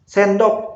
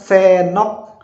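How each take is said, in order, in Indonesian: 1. Bunyi 'd' di tengah jelas diucapkan. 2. Bunyi 'd' di tengah dihilangkan. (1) "ada D-nya di tengahnya" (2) "D-nya hilang"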